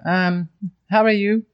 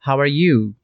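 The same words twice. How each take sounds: First: Level, half-hearted asking, held high; indifferent, hesitant "um" before the question; uninterested. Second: Said in the usual way. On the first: Shown as a demonstration. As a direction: ask it without much interest. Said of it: "eu não tô mostrando lá tanto interesse". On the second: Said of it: "não faz muito sentido, não tem muito efeito".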